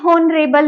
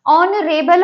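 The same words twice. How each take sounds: First: "हॉनरेबल" with a pronounced h at the start; wrong pronunciation. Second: "ऑनरेबल" with silent h, opening on the vowel; right pronunciation. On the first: Teacher to students, showing the wrong h-sound in "हॉनरेबल". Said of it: "नहीं होता". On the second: Teacher to students, giving the correct silent-h "ऑनरेबल". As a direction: say "ऑनरेबल" slowly with no h. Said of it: "हॉनरेबल नहीं होता". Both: Shown as a demonstration.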